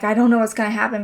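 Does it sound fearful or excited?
fearful. It sounds worried and fearful.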